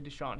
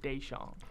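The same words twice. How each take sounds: First: The name is said in its usual pronunciation. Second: The name is said in an altered pronunciation. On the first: This is how the name is properly said. The speaker calls it right. "he literally wouldn't say Deshaun" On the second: This is how a commentator mispronounced the name. The speaker calls it wrong. "He'd say Deshaun"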